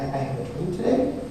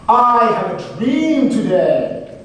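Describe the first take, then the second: First: The voice is hesitant and rises like a question. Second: The voice is loud, deep and confident. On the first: The speaker sounds unsure of the message. The speaker calls it wrong. "if he was timid" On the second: The speaker is sure and commanding. The speaker calls it right. "with his booming voice"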